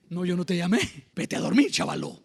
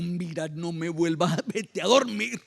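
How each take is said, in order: First: Mildly sweet, lower-pitched reply; gentle dismissal. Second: Mildly irritated, hammed-up scolding; mock grumpy.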